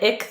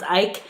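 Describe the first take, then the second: First: The name has a short 'ih' vowel. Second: The name has a long 'eye' vowel. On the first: The speaker calls it wrong. "I said it ick the whole time" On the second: The speaker calls it right. "I think his name is pronounced Ike"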